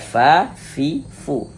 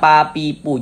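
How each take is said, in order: First: Each syllable starts with a breathy f sound. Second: Each syllable starts with a closed p sound. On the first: The speaker calls it right. "tapi dibaca fa, fi, fu. Jadi ada nafas yang mengalir" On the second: The speaker calls it wrong. "jangan dibaca pa, pi, pu. Jangan"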